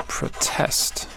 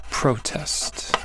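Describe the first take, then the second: First: Whispered protest, proTEST; whispered verb. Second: Whispered protest, PROtest; whispered noun. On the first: Teacher whispering the verb, quiet. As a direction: breathe proTEST while writing. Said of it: "starting with the verb?". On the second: Teacher whispering the noun, quiet. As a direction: breathe PROtest while writing. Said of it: "protest and modest". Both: Shown as a demonstration.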